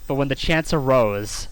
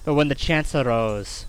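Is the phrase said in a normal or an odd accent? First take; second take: normal; odd. First: It is said in the usual, normal accent. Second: It is said in an odd, put-on accent. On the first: The speaker calls it right. "and not in a weird accent" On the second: The speaker calls it wrong. "I don't know why I said it like that"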